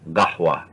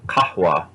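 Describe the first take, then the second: First: It is said in Gulf Arabic with a g sound. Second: It is said in Fusha with a k sound.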